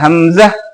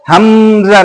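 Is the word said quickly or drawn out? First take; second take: quickly; drawn out. First: The word is said quickly and short. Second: The word is said slowly and drawn out. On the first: The speaker calls it right. "जल्दी से बोलना है" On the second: The speaker calls it wrong. "Hamza नहीं"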